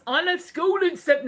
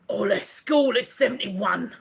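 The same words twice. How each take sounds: First: Higher-pitched put-on voice that misses; botched listener impression. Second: Mock impression of a listener; put-on character voice, nothing like the real man; Jimmy. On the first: Host reading Jimmy's message, botched higher impression. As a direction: attempt a character voice, pitched up. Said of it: "That's not the voice". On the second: Host reading Jimmy's message, teasing put-on impression. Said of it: "I know you don't talk like that".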